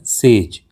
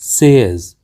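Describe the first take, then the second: First: सेज said as "sayj", one long ay; common mispronunciation. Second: सेज said as "sez", ending in a z; correct pronunciation. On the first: Teacher shows learners the common mistake, mispronounced. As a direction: say सेज as one syllable rhyming with "page". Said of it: "हम इसका उच्चारण करते". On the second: Teacher gives learners the correct word, carefully pronounced. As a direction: say सेज like "sez", clear final z. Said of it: "इसका सही उच्चारण होता है". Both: Shown as a demonstration.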